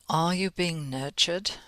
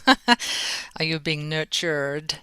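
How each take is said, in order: First: It is said in a non-American accent. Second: It is said in an American accent.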